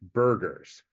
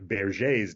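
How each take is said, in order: First: The name is said with a German pronunciation. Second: The name is said with a French pronunciation. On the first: The name is treated as German. "this is a German name and that it should be pronounced" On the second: The name is treated as French. "He's a French doctor, so a lot of people, myself included, thought it was pronounced"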